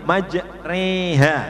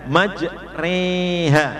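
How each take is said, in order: Both takes have the same delivery.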